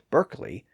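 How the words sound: The first vowel sounds like 'er' with an R. "Americans call Derby and Berkeley"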